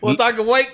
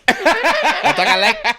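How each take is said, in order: First: The last word starts with a w sound. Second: The last word starts with an l sound. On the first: The speaker calls it wrong. "You said it again" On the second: The speaker calls it right. "Repeat after me. Lake"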